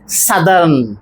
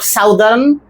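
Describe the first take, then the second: First: The first vowel is a short 'uh' sound. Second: The first vowel is an 'ow' sound. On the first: The speaker calls it right. "it should be southern" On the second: The speaker calls it wrong. "not southern"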